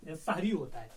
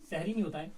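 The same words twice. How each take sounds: First: सहरी said "sahri" with an open a; correct pronunciation. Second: सहरी said "sehri" with an e sound; wrong pronunciation. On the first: Teacher giving students the correct सहरी, "sahri". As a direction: say सहरी as "sah-ri". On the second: Teacher showing students the wrong सहरी, "sehri". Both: Shown as a demonstration.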